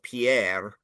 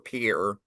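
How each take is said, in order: First: It is pronounced the French way. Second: It is pronounced the American way. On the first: "like the French name" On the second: "God forbid we say anything French correctly"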